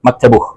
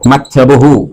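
First: The word ends with a clipped 'h' sound. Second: The word ends with a full 'hu' syllable. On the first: "സംസാരത്തിലേക്ക് വരുമ്പോൾ ഹു എന്നുള്ളത് ഹ് എന്നുള്ള സൗണ്ടിലേക്ക്" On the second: "മക്തബുഹു എന്ന് പറഞ്ഞാൽ അവന്റെ ഓഫീസ് എന്നാണ്"

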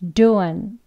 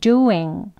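First: It ends in a weak uh sound. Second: It ends in a full ng sound. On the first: This is the weakest form. "약하게 어, 어 하는 소리를 내는데요" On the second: This is the full form, used when speaking slowly or emphasizing. "각각 세 가지 한 번씩 해볼게요"

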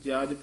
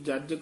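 First: The consonant is pronounced softly, not doubled. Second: The consonant is held tight and doubled. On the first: The speaker calls it right. "ਪੋਲਾ ਉਚਾਰਨ ਕਰਨਾ ਹੈ" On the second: The speaker calls it wrong. "ਕਸ ਕੇ ਨਹੀਂ ਬੋਲਣਾ"

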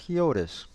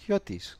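First: The name is pronounced with English sounds. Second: The name is pronounced with Greek sounds. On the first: "other people prefer to pronounce it as Hiotis" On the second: "you can pronounce it the Greek way"

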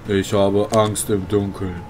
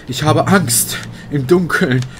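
First: It is said flatly, without emotion, like a robot. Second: It is said with fearful, emotional expression. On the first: It sounds like a recording, not real fear. The speaker calls it wrong. "so richtig emotionslos, fast wie so ein Roboter" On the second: The speaker is genuinely afraid. The speaker calls it right. "wenn man Angst hat, ja, dann sagt man"

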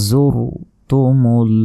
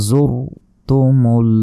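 No difference in how they are said.

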